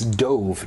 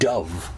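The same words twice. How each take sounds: First: The vowel sounds like the one in 'stove'. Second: The vowel sounds like the one in 'love'. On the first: It is the past tense of dive. The speaker calls it right. "by context, I know it's dove" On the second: It names a bird. The speaker calls it wrong. "Dove would be a bird"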